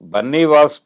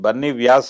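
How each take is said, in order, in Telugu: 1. పేరు సాధారణ 'vas' ధ్వనితో ముగుస్తుంది. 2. పేరు 'vyas' ధ్వనితో ముగుస్తుంది.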